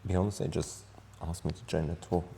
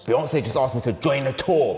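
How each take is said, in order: First: It sounds sad. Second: It sounds angry.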